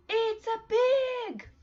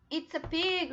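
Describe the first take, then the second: First: Much higher, louder and slow; model to repeat. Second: Said in the usual way. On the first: Shown as a demonstration. Teacher modelling the answer for the class to repeat. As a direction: sing it out clearly for kids to copy.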